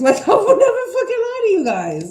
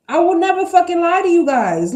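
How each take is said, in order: First: High, loud, laughing through it. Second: Higher and louder, insistent; emphatic. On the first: Reader repeating her promise to viewers, laughing. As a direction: crack up as you repeat the promise. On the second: Reader swearing honesty to her viewers, loud and insistent. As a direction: promise it hard. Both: Real, not acted.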